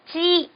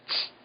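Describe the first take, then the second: First: The final vowel is held strongly. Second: The final vowel is clipped and weak. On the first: The speaker calls it wrong. "이 모음을 강하게 남기지 마시고" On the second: The speaker calls it right. "치 하는 식의 느낌으로 발음을 하시면 일본어의 치 발음이 됩니다"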